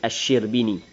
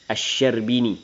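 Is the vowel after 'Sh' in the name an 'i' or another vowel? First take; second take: i; other. First: The vowel after 'sh' is an 'i'. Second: The vowel after 'sh' is not an 'i'. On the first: The speaker calls it right. "hak yang betul kena baca dengan Asy-Syirbini" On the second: The speaker calls it wrong. "Ada orang baca dengan"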